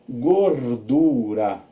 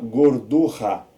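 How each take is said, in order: First: The r is a soft tapped sound. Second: The r is a strong, harsh sound. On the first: The speaker calls it right. "um R só" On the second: The speaker calls it wrong. "Senão ia ficar gordurra"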